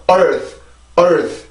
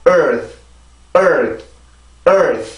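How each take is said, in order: First: Slow "earth" with the jaw lowered; faulty open-vowel "earth", drawn out; wrong jaw-drop pronunciation. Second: "earth" from a natural, barely open mouth; correct pronunciation. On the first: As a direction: drag out "earth" with a too-open mouth. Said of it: "이게 아니라". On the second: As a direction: model "earth" neatly, jaw kept still. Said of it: "이렇게 해서 발음이 되어야 됩니다". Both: Shown as a demonstration.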